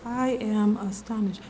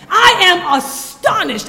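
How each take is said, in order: First: It is said in a flat, calm tone. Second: It is said with strong, shocked emotion. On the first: The speaker calls it wrong. "I know we read it like this" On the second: The speaker calls it right.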